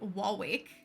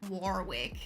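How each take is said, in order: First: The R sound is silent. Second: The R sounds are clearly pronounced. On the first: "for us, the R is like basically silent" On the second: "the Americans would say like something like Warwick"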